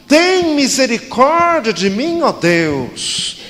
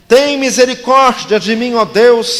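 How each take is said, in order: First: The psalm cried out high, slow and strong; strong intonation. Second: The psalm cried out high and loud; strong intonation. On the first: The pastor shows the congregation how to read the cry strongly. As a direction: lift it up as a desperate plea. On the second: The pastor reads the psalm aloud as a cry. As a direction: cry it out to God. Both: Shown as a demonstration. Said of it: "lemos todos juntos com entonação forte".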